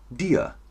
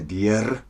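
First: The final R is pronounced as a vowel. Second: The final R is pronounced as a consonant. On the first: The speaker calls it right. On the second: The speaker calls it wrong.

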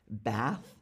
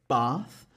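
First: It is said in an American accent. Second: It is said in a non-American accent. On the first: "an American would say something more like bath" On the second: "I say the word bath"

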